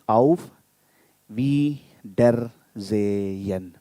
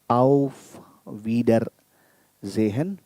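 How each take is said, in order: First: It is split into separate syllables. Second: It is said smoothly as one phrase.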